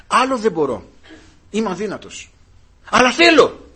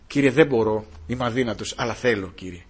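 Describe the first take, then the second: First: A plea that climbs in pitch and loudness, peaking on θέλω; rising plea. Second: Humble prayer. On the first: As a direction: build it up to a high, loud θέλω. Preacher voices weak believer's plea. (κλιμακούμενη ικεσία, δυνατά στο «θέλω») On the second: Quiet prayer to the Lord. (ταπεινή, σιγανή προσευχή) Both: Acted.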